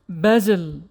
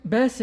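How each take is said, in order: First: The middle consonant is a buzzing Z sound. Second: The middle consonant is a hissing S sound. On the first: This is the English word for a fragrant herb. "it's pronounced basil in English" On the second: This is the Arabic name. "in Arabic"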